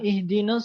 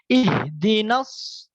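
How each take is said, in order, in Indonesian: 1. Dibacanya terburu-buru dan vokal panjangnya dihilangkan. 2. Dibacanya tidak terburu-buru dan vokal panjangnya dipanjangkan. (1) "terlalu cepat... seakan alifnya itu menghilang" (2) "Padahal harusnya ihdinas nas"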